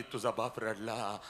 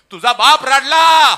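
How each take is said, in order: First: Said in the usual way. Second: Slow, much higher, very loud cry; shouted preaching climax; full-force shout. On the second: Acted. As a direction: hurl the line across the hall. Climax of the sermon.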